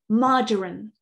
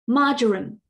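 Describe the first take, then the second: First: It is said in a British English accent. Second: The same.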